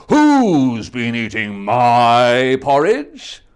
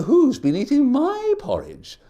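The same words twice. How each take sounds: First: Slow, loud, big bear voice; Papa Bear. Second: Higher, lighter mother bear voice; Mama Bear. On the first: Papa Bear discovering his porridge, slow booming. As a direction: boom it out slowly like a big bear. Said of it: "Papa Bear said". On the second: Mama Bear discovering her porridge, higher fussy. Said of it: "Mama Bear said". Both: Acted.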